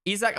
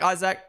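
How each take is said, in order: First: Isak said as EE-zak; EE-zak pronunciation. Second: Isaac said as EYE-zak; EYE-zak pronunciation. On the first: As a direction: start Isak with a long ee. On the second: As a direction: start Isaac like the word eye. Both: Shown as a demonstration. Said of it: "Say it the way you want".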